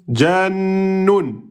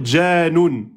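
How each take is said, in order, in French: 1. La consonne du milieu est tenue et doublée. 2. La consonne du milieu est brève, non tenue. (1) "La bonne prononciation" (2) "vous avez oublié le Noun soukoun"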